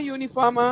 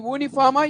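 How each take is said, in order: First: Said in the usual way. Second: యూనిఫామా begun with a pure "oo", no y-glide; యూనిఫామా mispronounced with "oo" for "yoo"; wrong vowel onset. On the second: Shown as a demonstration. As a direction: say యూనిఫామా as "ooniforma". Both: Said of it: "యూనిఫామ్".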